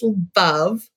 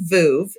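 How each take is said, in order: First: The word rhymes with love. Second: The word does not rhyme with love. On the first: The speaker calls it right. "It's Veuve. It rhymes with love" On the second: The speaker calls it wrong. "Most people say Veuve"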